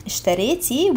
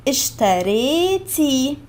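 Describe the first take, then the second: First: Said in the usual way. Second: اشتريتي drawn out slowly, each syllable clear; slow model word. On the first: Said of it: "we removed the A and added again double E". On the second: Shown as a demonstration. Teacher modelling اشتريتي slowly for learners, drawn out. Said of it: "اشتريتي, we removed the A".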